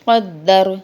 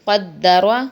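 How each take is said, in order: First: The word ends on a consonant. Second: The word ends with a short vowel.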